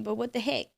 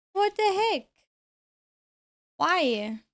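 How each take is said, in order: First: Said in the usual way. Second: Pitched way up in disbelief; exasperated high yelp. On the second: Real, not acted. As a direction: squeal it in outrage.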